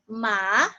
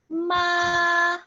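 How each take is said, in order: First: The pitch rises from lower to higher. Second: The pitch stays level and flat throughout. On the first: "the second tone is going up" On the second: "first tone, ma. It's a flat tone"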